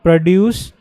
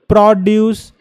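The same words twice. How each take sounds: First: The stress is on the second syllable. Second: The stress is on the first syllable. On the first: To make something. "not produce" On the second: Fresh fruits and vegetables. "If you f- emphasize on the first syllable"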